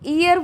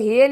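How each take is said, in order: First: The word begins with a vowel sound. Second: The word begins with an h sound. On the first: The speaker calls it right. "ईयर बोलती हैं" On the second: The speaker calls it wrong. "इसको हेयर नहीं"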